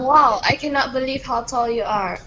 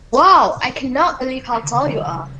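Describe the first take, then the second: First: It is read plainly, without much emotion. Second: It is read with passion and emotion.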